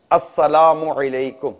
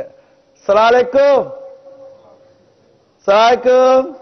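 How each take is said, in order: First: السلام علیکم said slowly, each syllable full; slow proper salaam. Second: Mock-hasty salaam, high and loud; hurried careless salaam. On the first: Shown as a demonstration. Preacher demonstrates the correct salaam, slow and full. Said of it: "سلام کرنا صحیح ہے". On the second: Preacher mocks hurried careless salaams, high and loud. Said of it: "ملاقات ہوتی ہے تو ہم کیا کرتے ہیں".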